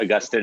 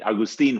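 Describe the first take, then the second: First: The name is pronounced with English sounds. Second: The name is pronounced with Spanish sounds. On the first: "in English" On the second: "in Spanish"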